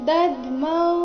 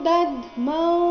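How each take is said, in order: The two takes are said the same way.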